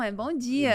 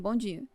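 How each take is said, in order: First: The greeting sounds lively and cheerful. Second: The greeting sounds flat and curt.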